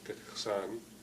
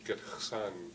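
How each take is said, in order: No difference in how they are said.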